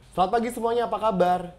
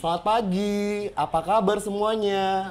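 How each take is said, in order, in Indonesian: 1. Diucapkan dengan cepat dan jedanya sangat singkat. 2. Diucapkan dengan lambat dan jedanya jelas. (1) "jedanya itu cepat" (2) "Kamu lihat jedanya"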